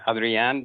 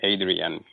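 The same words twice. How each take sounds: First: The name is pronounced the Spanish way. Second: The name is pronounced the English way. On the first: This is the name's original pronunciation. "That's the way it's pronounced, pronounced in Spanish" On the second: This is how most people locally say it. "on this side of the border, most people call me"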